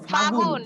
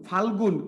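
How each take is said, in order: First: No 'l' sound is heard in the middle. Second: An 'l' sound is heard in the middle. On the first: This is the later shortened form. "সেই ফাল্গুনটা আজ হয়ে গেছে কি এখন ফাগুন" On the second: This is the older full form. "আমরা আগে বলতাম"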